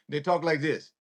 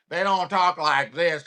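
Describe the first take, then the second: First: Light New Orleans accent; understated Louisiana city accent. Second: Mock marble-mouthed Southern drawl; affected senator-style Southern drawl; put-on Southern drawl. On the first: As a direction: show how New Orleans locals talk. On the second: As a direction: mimic a fake country Southern accent. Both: Shown as a demonstration.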